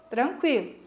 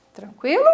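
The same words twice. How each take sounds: First: Falling, settled answer; answering tune. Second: Rising question, louder; asking tune. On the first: Teacher answers her own question for the class, falling statement. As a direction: tranquilo said flat and falling, as an answer. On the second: Teacher asks the class if all is clear, rising question. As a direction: check in with a lifted, louder tranquilo. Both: Shown as a demonstration.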